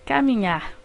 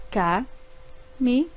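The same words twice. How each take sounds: First: Said in the usual way. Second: Ca-mi-nhar said slowly, each syllable its own beat; syllables split apart. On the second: Shown as a demonstration. Teacher spelling out Ca-mi-nhar for pupils, slow syllables. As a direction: break Ca-mi-nhar into three slow separate syllables. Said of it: "Cada vez que eu abro a boca".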